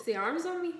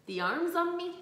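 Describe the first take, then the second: First: High-pitched, unguarded Dublin accent; strong Dublin accent. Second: Mimicking a very Dublin accent, pitched up; high, self-mocking Dublin accent; strong Dublin accent. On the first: Real, not acted. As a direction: let the Dublin accent slip out. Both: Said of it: "I've never sounded so more Dublin".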